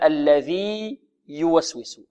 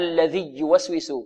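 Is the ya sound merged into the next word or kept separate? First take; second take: separate; merged. First: The ya is kept separate and clearly pronounced. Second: The ya is merged into the following ya. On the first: The speaker calls it right. "إذن الذي يوسوس" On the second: The speaker calls it wrong. "هل نقول هناك الذي يوسوس؟ خطأ، لا تدغم"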